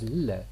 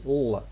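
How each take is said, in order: First: The L is clear, with the tongue forward. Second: The L is dark, with the tongue raised back. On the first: "it is clear. A pure alveolar lateral" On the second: "What you obtain is a dark L"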